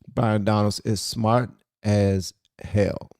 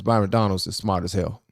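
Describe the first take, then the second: First: "smart as hell" slowed, each word set apart; deliberate emphasis. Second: Said in the usual way. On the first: Real, not acted. Host praising Byron Donalds, "smart as hell" spelled out slowly. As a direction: space out "smart", "as", "hell" with clear pauses.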